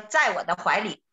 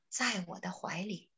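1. 声音里的气很少。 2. 声音很轻，气很多。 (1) "这个就气少了" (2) "像给baby 讲话似的啊"

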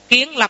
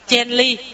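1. Đọc theo âm Hán Việt. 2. Đọc theo âm Quan Thoại hiện đại. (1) "cái âm Hán Việt của mình" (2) "Kiến lập phải đọc là chen ly"

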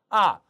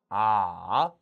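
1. 음이 높은 데서 낮게 급하게 떨어집니다. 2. 음이 낮게 내려갔다가 다시 올라갑니다. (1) "사성" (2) "삼성"

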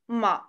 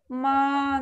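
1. Тон опускается низко, потом снова поднимается. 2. Тон остаётся высоким и ровным. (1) "Вниз и вверх" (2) "Первый тон ровный и высокий"

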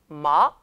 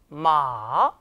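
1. 음높이가 중간에서 높게 빠르게 올라갑니다. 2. 음높이가 낮게 내려가고, 길게 늘여 발음합니다. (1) "2성" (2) "3성"

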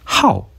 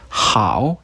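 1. 성조가 갑자기 떨어져요. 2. 성조가 갑자기 떨어지지 않아요. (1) "이렇게 읽으면 동사로 좋아하다" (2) "형용사로 좋다란 뜻인데"

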